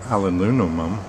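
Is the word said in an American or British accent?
British. It is said with a British accent.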